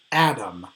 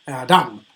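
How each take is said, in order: First: Adam as AD-am, falling; initial stress. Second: Adam misread as a-DAM; wrong final stress. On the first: Teacher lists colleagues' names correctly, Adam stressed on AD. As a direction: stress the first syllable of Adam. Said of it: "have an initial stress". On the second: Teacher shows what sounds wrong, Adam stressed on DAM. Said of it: "it would not sound right to call". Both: Shown as a demonstration.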